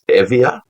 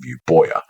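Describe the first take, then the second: First: It uses the modern Greek pronunciation, Evia. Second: It uses the classical English pronunciation, Euboea. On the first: "when you mention that to a modern Greek" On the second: "I use Oxford University pronunciation of ancient Greek place names"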